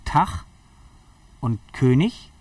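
It is said with a northern German accent.

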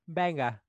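It is said in a British accent. The speaker calls it right.

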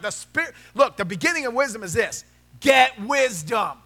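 It is said in a sarcastic tone.

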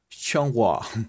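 It is said with a mock French accent.

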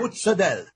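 It is said in New York Italian-American style.

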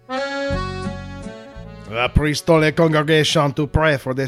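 It is read in a put-on French accent.

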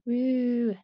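It sounds flat and unenthusiastic.

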